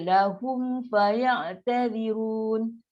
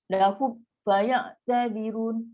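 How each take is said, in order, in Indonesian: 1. Kata-kata itu mengalir begitu saja tanpa jeda. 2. Bunyi terputus setelah lahum. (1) "Sedangkan kita baca lap biasa je" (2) "Sebab kita dah putus"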